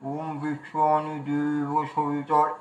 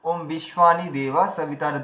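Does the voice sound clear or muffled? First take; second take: muffled; clear. First: The words sound muffled, as if something fills the mouth. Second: The words are spoken clearly with an open mouth.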